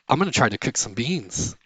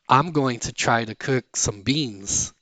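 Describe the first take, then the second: First: "Going to" is reduced to "gonna". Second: "Going to" is said in full.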